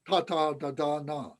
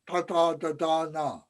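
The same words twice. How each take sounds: First: The tongue touches far back on the palate. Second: The tongue touches far back on the palate.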